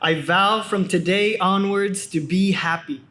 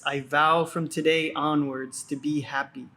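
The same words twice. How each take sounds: First: It is said loudly and energetically. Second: It is said at normal speaking volume. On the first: "first with a loud, energetic voice" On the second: "Again with a normal speaking voice"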